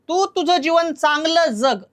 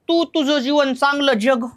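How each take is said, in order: First: The last word starts with a 'dz' sound. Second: The last word starts with a palatal 'j' sound. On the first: The speaker calls it right. "जग नाही" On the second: The speaker calls it wrong. "का आपण असं म्हणतो"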